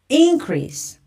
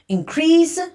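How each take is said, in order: First: The stress is on the first syllable. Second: The stress is on the second syllable. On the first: It is used as a noun. "and the noun's stress comes to the first part" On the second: It is used as a verb. "So the verb stress comes to the second part"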